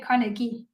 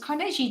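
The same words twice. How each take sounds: First: The g is said as a hard g. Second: The g is said like a j. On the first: The speaker calls it right. "it's a G, not a J" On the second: The speaker calls it wrong. "Carnegie just sounds nicer"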